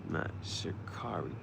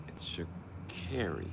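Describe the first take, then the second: First: Sha'Carri whispered with car, shuh-KAR-ee; whispered wrong way. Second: Sha'Carri said slowly with care, shuh-KAIR-ee; slow, soft correction, Sha'Carri like care; correcting tone. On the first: The runner correcting everyone, whispered wrong Sha'Carri. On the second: The runner correcting everyone, slow Sha'Carri with care. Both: Retold or imitated. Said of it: "I'm gonna correct you every time".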